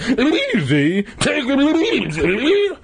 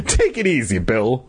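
First: Very high, slow, hammed-up shriek. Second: Mildly soothing, voice dropping on the name; calm. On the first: Mister McCall throwing Dad's words back at him, shrieking. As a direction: screech it back in outrage, stretching the words. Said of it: "Mister McCall shrieked". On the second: Dad to his upset neighbour Bill, calmly. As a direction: talk him down calmly. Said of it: "my dad said calmly". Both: A narrator's reading.

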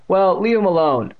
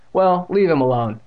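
First: High, loud parroting voice; exaggerated mimicking taunt; mocking mimicry. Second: High, loud demand; raised voice, telling bullies off; firm interruption. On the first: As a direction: throw the words back in a silly high voice. Bully parrots her words back mockingly. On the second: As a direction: cut in to defend a friend. Interrupts to defend him from bullies. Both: A narrator's reading.

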